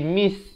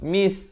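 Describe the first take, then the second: The two takes are said the same way.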